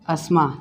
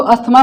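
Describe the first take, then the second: First: अस्मा with no 'th', low and soft; English silent TH. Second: अस्थमा with the 'th' sounded; Hindi-style pronunciation. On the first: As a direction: say अस्मा as 'as-ma', dropping the th. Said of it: "ये हमारा टीएच cut जाता है". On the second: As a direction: say अस्थमा with an audible aspirated t. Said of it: "Hindi में तो अस्थमा पढ़ेंगे". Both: Shown as a demonstration.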